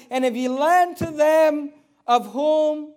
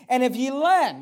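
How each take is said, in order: First: Lend drawn out slow, louder and higher; preacher stressing lend, slow and loud; emphatic scripture reading. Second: Said in the usual way. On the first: Shown as a demonstration. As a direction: lean hard on lend so they mark it. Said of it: "underline this in your Bible". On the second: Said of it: "he says".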